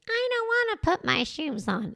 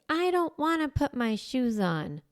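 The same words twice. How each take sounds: First: It is said in a mocking, imitating voice. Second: It is said plainly, without mockery.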